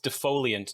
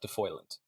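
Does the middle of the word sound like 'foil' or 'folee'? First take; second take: folee; foil. First: The middle sounds like 'folee', four syllables. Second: The middle sounds like 'foil', three syllables. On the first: The speaker calls it right. "it's defoliant" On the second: The speaker calls it wrong. "not defoilant"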